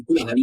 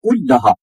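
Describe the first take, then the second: First: कुल हानी run together with a short L; lower, undoubled L in कुल हानी; wrong single L. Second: कुल लहा with the L held double; कुल लहा with geminated L and long final aa; doubled L. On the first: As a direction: drop the doubling, as ku-la-ha. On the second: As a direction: join it as kul-la-haa, leaning on the L. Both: Shown as a demonstration. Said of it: "कुल हानी है".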